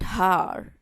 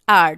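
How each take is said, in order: First: The word begins with an h sound. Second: The word begins directly with a vowel. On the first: The speaker calls it wrong. "We don't pronounce that har" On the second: The speaker calls it right. "This is R"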